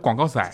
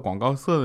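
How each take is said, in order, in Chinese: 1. 这是带浓重的地方口音。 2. 这是标准普通话。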